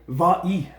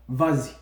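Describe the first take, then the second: First: The two words join with no linking sound. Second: A z sound links the two words. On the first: The speaker calls it wrong. "je ne peux pas dire va-y" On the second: The speaker calls it right. "Non, donne-en, vas-y"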